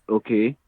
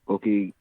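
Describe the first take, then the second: Both takes have the same delivery.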